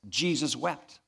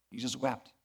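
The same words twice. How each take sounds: First: Said in the usual way. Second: Softer and lower, let it sink in; hushed repeat. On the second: Shown as a demonstration. Preacher repeats the verse to the congregation, hushed and softer. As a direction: say it again almost under the breath, reverently.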